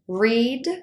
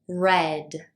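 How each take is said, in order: First: The vowel is long, rhyming with seed. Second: The vowel is short, rhyming with bed. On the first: The action happens now or habitually. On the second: The action happened in the past.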